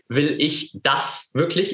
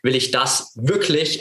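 First: The stress is on the word das. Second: The stress is on the word wirklich.

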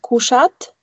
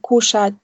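First: The final t is hard, not palatalized. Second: The final t is soft and palatalized. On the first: The speaker calls it wrong. "Nicht kuschat" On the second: The speaker calls it right. "wird das T so verweichlicht gesprochen"

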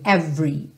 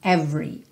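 Both takes have the same delivery.

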